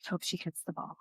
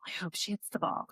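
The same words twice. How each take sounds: First: Much softer, tense hoping under the breath; anxious mutter. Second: Whispered nervous hope; anxious whisper. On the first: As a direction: mutter the hope nervously to yourself. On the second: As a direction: whisper it like a silent prayer in the stands. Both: Retold or imitated. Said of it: "'cause I was like".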